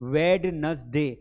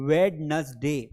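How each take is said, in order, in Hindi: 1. पहली D की आवाज़ बोली जाती है। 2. पहली D की आवाज़ बोली जाती है।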